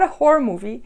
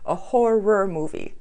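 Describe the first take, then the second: First: The first word sounds like a different word. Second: The first word is clearly pronounced as horror. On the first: The speaker calls it wrong. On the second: The speaker calls it right.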